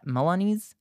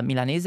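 First: Unsure "Milanese" as muh-lah-NEEZ, rising; attempted English pronunciation. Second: "Milanese" said the Italian way, mee-lah-NEH-zeh; Italian pronunciation. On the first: Streamer unsure of the English word, tentative English pronunciation. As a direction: try "Milanese" the English way, ending in -eez, questioning. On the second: Streamer searching for the word for non-Italian viewers, Italian pronunciation. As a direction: say "Milanese" with Italian vowels, sounding the final e. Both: Real, not acted. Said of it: "I don't know how to say in English".

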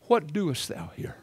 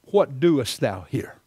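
First: Same question, softer and hushed; God asking Elijah again, a quieter take; God's question, second time. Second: God's question. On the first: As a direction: ask it again, gently and quietly. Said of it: "Second time". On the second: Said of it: "he asked him the second time". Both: Retold or imitated.

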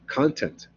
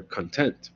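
First: "content" stressed on the first syllable, CON-tent; noun content. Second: "content" stressed on the second syllable, con-TENT; adjective content. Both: Shown as a demonstration. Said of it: "content and content".

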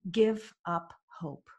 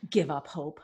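First: Slow, spaced-out verdict; grave pronouncement. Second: Incredulous echo. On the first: Coach answering irritated client, slow and deliberate. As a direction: lay down each word slowly and deliberately. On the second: Client silently disputing coach's advice, incredulous. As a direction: echo it flabbergasted, then climb in protest. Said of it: "what I was thinking at the time". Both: Retold or imitated.

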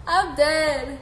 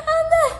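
First: Said in the usual way. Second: Much higher and louder, squealed through laughter; laughing squeal. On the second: Real, not acted. Streamer reacting to a joke comment, squealing with laughter. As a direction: shriek it, dying of laughter.

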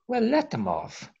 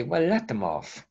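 First: High, mocking brush-off, pitched way up; mock the bishops waving people away; sarcastic "Well, let them off" said sharply high; dismissive bishops. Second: A lighter, near-plain repeat of "Well, let them off"; understated "Well, let them off" with a slight lift; mild dismissive echo. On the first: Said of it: "a lot of them say". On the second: Retold or imitated. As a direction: echo the bishops only lightly. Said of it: "And you say".

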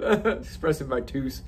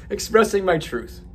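First: Slow, quiet replay of "tooth" for "truth"; mock repeat of the slip; mocking own slip. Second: "truth" said right through a laugh; amused correct take; laughing correction. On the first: Shown as a demonstration. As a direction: repeat the blunder "Expressing my tooth" slowly. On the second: Real, not acted. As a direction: fix it while still laughing.

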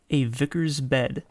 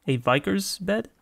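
First: Said in the usual way. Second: "A vicar's bed" higher, rising into a question; puzzled question. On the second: Real, not acted. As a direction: query "A vicar's bed" with a lifted ending. Repeats the text, puzzled.

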